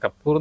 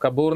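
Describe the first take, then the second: First: The p sound is held long and doubled. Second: The p sound is short and single. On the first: This is the name of the speaker's home village. The speaker calls it right. "എന്നാണ് ശരിക്കും" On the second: This is the form printed in the press. The speaker calls it wrong. "തെറ്റിയിട്ടാ കൊടുക്കുക. നമുക്ക് കപൂർ എന്നാണ് കൊടുക്കുക"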